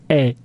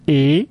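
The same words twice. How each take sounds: First: It has the vowel of the grave-accented E. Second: It has the vowel of the acute-accented E. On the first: "If you put an accent circumflex or an accent grave, it becomes E" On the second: "if you put what we call an acute accent, it becomes E"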